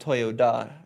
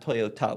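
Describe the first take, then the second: First: The third consonant is a d sound. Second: The third consonant is a t sound. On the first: It is the family's name. The speaker calls it right. "T O Y O D A, just like the family's name" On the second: It is the brand's name. The speaker calls it wrong. "not T A"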